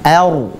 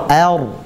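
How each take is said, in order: Both takes have the same delivery.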